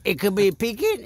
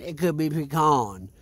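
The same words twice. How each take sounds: First: "pecan" as PEE-kin, quick and higher; PEE-kin pronunciation. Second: "pecan" as pi-KAHN; pi-KAHN pronunciation. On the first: Arguing over the nut's name, "pecan" said PEE-kin. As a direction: stress the first syllable of "pecan", PEE-kin. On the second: Offering the other option, "pecan" said pi-KAHN. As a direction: stress the second syllable of "pecan", with a long KAHN. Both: Shown as a demonstration. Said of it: "if you wanna call it pecan or pecan".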